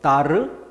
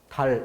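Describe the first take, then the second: First: The final consonant is an R-like tap. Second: The final consonant is a clear L sound. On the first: The speaker calls it wrong. "엘이 아니라 이걸 알로 바꿔보세요" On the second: The speaker calls it right. "알이 아니라 엘이 분명하다"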